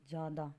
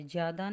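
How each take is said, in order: First: ज़्यादा said as "zaada", plain z and no y-glide; the right version, ज़्यादा with a clean "zaa" onset; correct pronunciation. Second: ज़्यादा said as "zyaada", with a y-glide after the z; the wrong version, ज़्यादा spoken with a "zy" onset; wrong pronunciation. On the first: Teacher giving students the right form, "zaada" without the y. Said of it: "ये ज़्यादा है". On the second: Teacher showing students the form to avoid, "zyaada" with the y-glide. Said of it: "ज़्यादा नहीं". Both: Shown as a demonstration.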